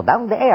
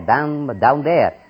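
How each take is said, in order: First: "Down there" in a high, light American English voice with no rolled R; mimicking the granddaughter's native English, pitched high; native English pronunciation. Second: "Down there" with a rolled Spanish R in "there"; "Down, down there" said the Spanish way, R trilled at the end; imitating his own Spanish accent on "down there"; Spanish-accented English. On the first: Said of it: "con una fonética muy diferente". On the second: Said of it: "y le sueno la R allá".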